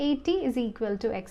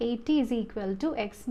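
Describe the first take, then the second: No difference in how they are said.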